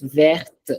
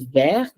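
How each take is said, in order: First: The final T is pronounced. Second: The final T is silent. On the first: "I do say the T in the second one" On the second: "The first one is vert"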